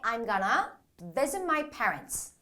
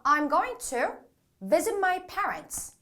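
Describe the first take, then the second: First: 'Going to' is reduced to 'gonna'. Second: 'Going to' is said in full.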